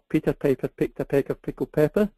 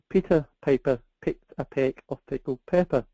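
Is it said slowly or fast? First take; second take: fast; slowly. First: It is said at a faster pace. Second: It is said at a slower pace.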